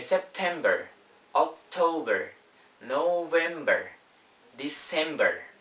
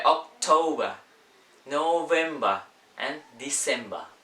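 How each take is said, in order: First: American accent, r sounded at the end of each month; higher, louder, drawn-out American "-ber"; American pronunciation. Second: British accent, final r dropped in each month; higher, louder British "-ba" endings; British pronunciation. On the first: Teacher contrasting American with British months, American accent. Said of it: "Itu American". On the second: Teacher contrasting British with American months, British accent. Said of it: "di British". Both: Shown as a demonstration.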